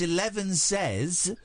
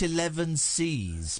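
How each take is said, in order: First: The last syllable sounds like 'says'. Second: The last syllable sounds like 'sees'. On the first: The speaker calls it right. "It's eleven says" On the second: The speaker calls it wrong. "not eleven sees"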